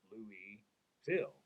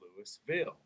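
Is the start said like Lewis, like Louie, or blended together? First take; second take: Louie; Lewis. First: The first part sounds like Louie, as in Louisiana. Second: The first part sounds like Louis with an s. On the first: The speaker is closer to how locals say it. The speaker calls it right. "you take Louisiana, ... which is kind of like how you say it" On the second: The speaker is a learner going by the spelling. The speaker calls it wrong. "that's Saint Louis, so this should be Louisville"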